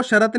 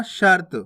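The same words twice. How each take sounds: First: शरत split as "sha-rat"; full vowel after the r in शरत; wrong full "ra". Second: शर्त as one syllable, "shart"; half "r" in शर्त. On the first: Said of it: "नहीं पढ़ना". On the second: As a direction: join r straight to t in शर्त. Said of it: "आपको शरत नहीं पढ़ना". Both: Shown as a demonstration.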